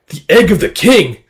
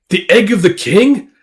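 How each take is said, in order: First: Higher, loud amazement, falling at the end; stunned recognition. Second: High voice rising on KING; disbelieving question. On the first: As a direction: act a startled realization. Monster stunned by pendant. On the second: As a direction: repeat it as an incredulous question. Repeats it in disbelief. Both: Acted.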